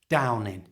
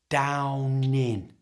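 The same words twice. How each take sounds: First: The phrase is said at normal conversational speed. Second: The phrase is said slowly and drawn out. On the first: "and at normal speed" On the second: "So slowly it's"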